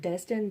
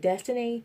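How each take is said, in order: First: The name ends without a final vowel sound. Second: The name ends with an added final vowel sound. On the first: The speaker calls it right. "it's a silent E, so it is pronounced Destin" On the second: The speaker calls it wrong. "they call me Destiny, ... it's not my name"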